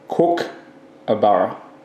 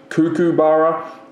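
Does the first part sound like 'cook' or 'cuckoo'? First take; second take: cook; cuckoo. First: The first part sounds like the word cook. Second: The first part sounds like the word cuckoo. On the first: This is the proper local pronunciation. The speaker calls it right. "like your wife cooks in the kitchen" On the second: This is how people from another country say it. The speaker calls it wrong. "That's what they say. Cuckoo"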